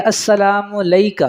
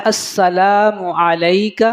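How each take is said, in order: First: السلام علیکہ said quickly with the ain dropped; swallowed ain. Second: السلام علیکہ with the ain of علیکہ sounded clearly. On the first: Teacher showing how the ain in علیکہ gets swallowed. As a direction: slur علیکہ and lose the ain. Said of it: "عین کھا دیا جاتا ہے". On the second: Teacher correcting the recitation of علیکہ, ain said clearly. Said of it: "تو اس کو پڑھنا ہے". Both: Shown as a demonstration.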